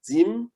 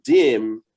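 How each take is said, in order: First: "dim" as one joined syllable, pitched up; "dim" said joined, higher, as a single word; connected pronunciation. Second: "dim" drawn out slowly, as written with a space; slow, spelled-out "dim"; separated letters. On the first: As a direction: run the m onto the D in "dim". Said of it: "with the D that, that precedes it". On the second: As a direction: stretch "dim" slowly, the m apart. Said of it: "you don't pronounce the letter as the letter". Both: Shown as a demonstration.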